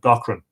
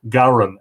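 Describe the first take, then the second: First: The middle consonant is sounded. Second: The middle consonant is silent. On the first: The speaker calls it wrong. "instead of" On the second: The speaker calls it right. "as he would pronounce it"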